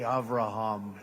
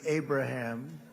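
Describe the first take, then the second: First: The name is said with a V sound. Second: The name is said with a B sound. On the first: "I like calling it the Avraham Accords" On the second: "the Abraham versus the Avraham"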